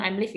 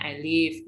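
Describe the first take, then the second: First: "I'm live" with an audible M; wrong form I'm live. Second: "I live" with no M; correct form I live. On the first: Teacher quoting the error to a student, "I'm live". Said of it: "Nggak boleh bilang". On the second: Teacher correcting the student, clear "I live". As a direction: model "I live", I straight into live. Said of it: "harusnya bilangnya". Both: Shown as a demonstration.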